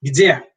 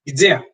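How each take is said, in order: First: Где as one syllable "GDYE", crisp; teaching the word for where; Russian gde. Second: Где again, "GDYE", clipped and clear; same word once more; Russian gde repeated. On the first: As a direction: say Где clearly as a question word. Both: Shown as a demonstration. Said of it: "a good word to know is where".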